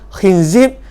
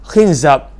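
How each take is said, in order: First: Both syllables have the vowel i. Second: The first syllable has i, the second a. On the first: "kha dan zai baris bawah" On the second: "baris bawah"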